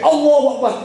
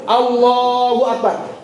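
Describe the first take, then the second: First: It is said very fast. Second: It is said slowly and calmly.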